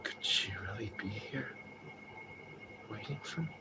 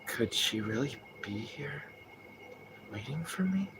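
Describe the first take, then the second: First: Breathy whisper, much softer; own whispered version. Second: Softer, slow, unsure question; imitating the original actor. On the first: Shown as a demonstration. Streamer demonstrating their own take on James's line, whispered. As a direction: whisper it like you barely dare ask. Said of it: "the way I do it is just like". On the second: Streamer imitating the original voice actor's James line, slow and soft. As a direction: murmur it slowly, wondering. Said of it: "'Cause his would be like".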